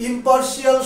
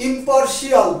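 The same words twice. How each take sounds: The two takes are said the same way.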